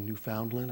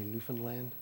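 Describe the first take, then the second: First: It is said the way outsiders pronounce it. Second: It is said the way locals pronounce it. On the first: The speaker does not use this pronunciation. "I don't say Newfoundland" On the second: It shows family roots in Newfoundland. "I say Newfoundland"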